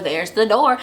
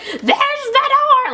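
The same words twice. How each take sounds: First: Said in the usual way. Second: High, drawn-out yell after someone; mock yelling. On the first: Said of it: "Chanel number one is, like". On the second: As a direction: imitate yelling someone out, louder and much higher. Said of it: "like, yelling after her".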